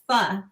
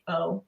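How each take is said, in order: First: The word ends in a short, clipped vowel. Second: The word ends in a long 'oh' vowel. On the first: "it sounds like half of a word" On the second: "rhymes with dough"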